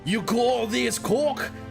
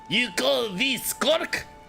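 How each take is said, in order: First: It is read in a plain, ordinary voice. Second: It is read in a put-on French accent.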